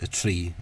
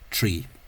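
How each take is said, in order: First: The r is voiced, with no hiss. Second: The r is devoiced, with a hissing sh. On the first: "I tend to say tree in English" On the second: "that devoiced uh"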